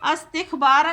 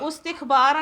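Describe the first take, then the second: First: The word begins with an a vowel. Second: The word begins with a u vowel. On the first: "अस्तिखबारा नहीं पढ़ेंगे" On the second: "उस्तिखबारा नहीं पढ़ेंगे"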